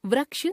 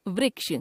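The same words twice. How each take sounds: First: वृक्ष as "vraksh"; mispronounced ri. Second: Said in the usual way. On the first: Shown as a demonstration. Teacher showing a common error, वृक्ष with ra for ri. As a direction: put "ra" for "ri" in वृक्ष. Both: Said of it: "र, री संबंधी अशुद्धियां".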